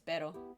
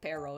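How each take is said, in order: First: The R is a quick tongue tap. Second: The R is said without a tongue tap. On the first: The speaker calls it right. "it's pero" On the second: The speaker calls it wrong. "it's not like pero"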